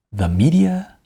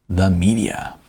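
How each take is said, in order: Both takes have the same delivery.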